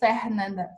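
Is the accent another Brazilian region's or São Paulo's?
another region. It is said in another regional Brazilian accent. "depending on where you're from, you'll probably say Fernanda"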